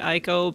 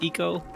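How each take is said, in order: First: The name is said the common anglicized way. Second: The name is said the Japanese way. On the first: "Some people say" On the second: "if you're following Japanese pronunciation"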